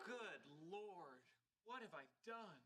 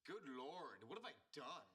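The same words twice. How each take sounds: First: Soft, hushed dismay; quiet remorse. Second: Mimicking Sheldon. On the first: Acted. Sheldon realizing he upset Hawking, hushed. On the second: Raj echoing Sheldon's guilty words, mocking. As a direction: parrot his dismay back at him.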